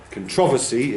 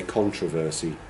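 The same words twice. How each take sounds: First: Controversy with stress on TROV; second-syllable stress. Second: Controversy with stress on CON; first-syllable stress. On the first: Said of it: "you might also say controversy". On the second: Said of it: "you might also say". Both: Shown as a demonstration.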